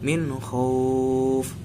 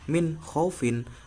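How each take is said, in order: First: The word stops on f with no ending. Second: The word ends with the -in syllable. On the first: The reader pauses at the end of the phrase. "Ini ketika terdi wakof, maka dibaca min khauf" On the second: The reading continues without a pause. "jika diwasolkan menjadi min khaufin"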